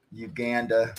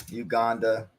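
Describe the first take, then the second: First: Uganda said as yoo-GAN-da, a as in cat; first take, Uganda with the a of cat; Uganda with flat a. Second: Uganda said as yoo-GAHN-da, a as in father; Uganda with broad a. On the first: Reading the match update, Uganda with a cat vowel. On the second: Correcting his update, Uganda with a father vowel. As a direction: corrects himself, Uganda with an open ah. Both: Shown as a demonstration.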